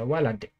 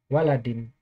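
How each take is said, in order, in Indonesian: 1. Akhiran vokal terakhir dihilangkan. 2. Akhiran vokal terakhir dibaca penuh. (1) "kadang-kadang harokat akhirnya dimatikan" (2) "harokat akhirnya"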